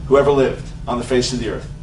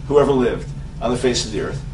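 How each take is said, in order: Both takes have the same delivery.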